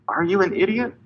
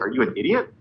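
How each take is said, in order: First: It is said in a gentler, nicer tone. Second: It is said in a harsh, blunt tone.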